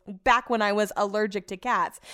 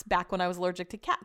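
First: Sceptical quoting, a little firmer; mildly mocking quotation of a dubious claim; audible air quotes. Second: Said in the usual way. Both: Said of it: "quote, air quotes".

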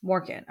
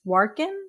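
First: "Workin" repeated softly as corrected; "Workin" softly copied from the co-host; corrected pronunciation. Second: Questioning try at the name, "Warkin?"; "Warkin" offered for checking; unsure pronunciation. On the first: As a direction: echo "Workin" quietly, as a settled statement. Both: Real, not acted.

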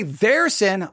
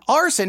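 First: "their" set apart for contrast; stress on THEIR. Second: "our" pitched up and leaned on; stress on OUR. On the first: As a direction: point up "their" as the rejected word. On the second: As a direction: punch "our" as the corrected word. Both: Shown as a demonstration. Contrasting their sin with our sin.

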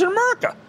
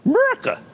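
First: America in a Philadelphia accent; Philly accent slipping out on "America". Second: America pitched very high in a Philly accent; high mock-Philadelphia "America". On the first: Real, not acted. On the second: Shown as a demonstration. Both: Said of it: "That accent".

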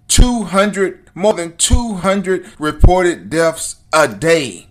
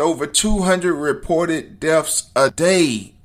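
First: TWO HUNDRED hit louder and drawn out; emphatic repetition. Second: Said in the usual way. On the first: Real, not acted. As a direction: hammer "two hundred reported deaths a day" slowly and loudly. Repeats figure to drive it home.

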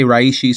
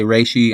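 First: "reishi" in the first of two pronunciations; own pronunciation. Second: "reishi" in the alternative pronunciation; other people's pronunciation. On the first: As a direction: say "reishi" as the speaker's own variant. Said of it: "I say reishi". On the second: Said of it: "Some people say reishi". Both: Shown as a demonstration.

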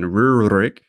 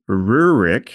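First: "Rurik" in an approximate Russian pronunciation. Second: Said in the usual way. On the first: Shown as a demonstration. Co-host introducing a Viking chieftain, "Rurik" with an approximated Russian pronunciation. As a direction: say "Rurik" roughly as a Russian would. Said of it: "to approximate the Russian pronunciation". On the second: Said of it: "or maybe to approximate the Russian pronunciation".

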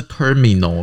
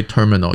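First: Terminal中间的I读成清楚的“咪”; 把terminal念成“ter-mi-nal”，I照字面发音; 错误的母音读法. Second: Terminal非重音的母音读成“呃”; 只重读terminal开头，中间I轻念成“呃”; 弱化母音. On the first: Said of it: "你看不是terminal". (terminal的I念成“咪”) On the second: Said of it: "不在中音里面的母音都会有一点呃". (terminal中间轻读成“呃”) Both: Shown as a demonstration.

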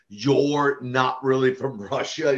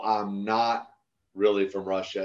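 First: Slow, lightly imitated Russian-accented disbelief; broken Russian accent. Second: Said in the usual way. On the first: Wrestler imitating a let-down fan, mild broken Russian accent. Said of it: "she had kind of this broken accent". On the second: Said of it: "I go".

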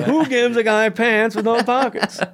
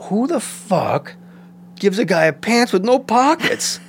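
First: Much higher indignant whine; hammed-up outraged complaint; mock outrage. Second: Much higher, slow indignant rant; hammed-up outraged complaint; mock outrage. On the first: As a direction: repeat the gripe in disbelief. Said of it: "repeats the complaint". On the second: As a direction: rant at wardrobe in disbelief. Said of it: "And I was like".

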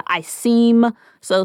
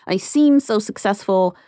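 First: "seem" held long before moving on; stress on "seem". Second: Slow, with heavy emphasis on "seem"; stress on "seem". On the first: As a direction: lean heavily on "seem". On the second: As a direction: draw out "seem" after a little laugh. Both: Acted. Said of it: "heavy emphasis on the word seem".

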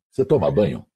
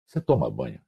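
First: Lightly voiced boss, a touch lower; mock the boss's blunt question; imitating Hélio. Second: Lower, softer repeat. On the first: Radio boss asks new announcer if he bathes, lightly voiced. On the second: Retold or imitated. Retelling to Viviane the boss's question, low and soft.

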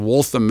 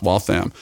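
First: "Waltham" said the outsider's way; mispronounced Waltham. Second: "Waltham" said the local Boston way; corrected pronunciation of Waltham. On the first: Retold or imitated. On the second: Shown as a demonstration. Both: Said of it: "it's pronounced Waltham".

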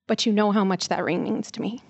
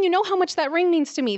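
First: Gentle apology. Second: Higher, scolding emphasis on "know"; angry big sister, "know" hit hard and falling; retold yell. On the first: Retold or imitated. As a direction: plead with the brother, calm. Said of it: "and I apologized". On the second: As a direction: reproach the brother, higher and heated. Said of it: "And I yelled at him".

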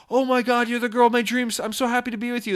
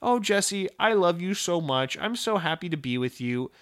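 First: High-pitched lovestruck excitement; mock gushing. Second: Lightly voiced adoring girlfriend; loving girlfriend. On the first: Smitten boyfriend answers his girlfriend, hammed-up delight. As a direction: gush it high, as if overjoyed. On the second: Girlfriend tells Jesse she loves him, lightly imitated tenderness. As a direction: gush gently, easing down as it goes. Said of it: "my girlfriend coming up to me".

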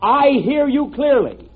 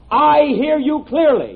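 First: Slow clear dictation. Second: Dictating the test sentence; slow clear dictation again, a little louder. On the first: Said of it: "repeat this sentence". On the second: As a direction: spell out each word slowly. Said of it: "Have you got that?". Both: Shown as a demonstration.

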